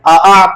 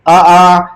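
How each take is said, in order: First: The second vowel starts with an abrupt glottal jerk. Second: The second vowel starts with a soft, gentle catch. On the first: The speaker calls it wrong. "अमूमन बच्चे इसमें झटका देते हैं" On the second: The speaker calls it right. "हमजा को नरमी से पढ़ेंगे"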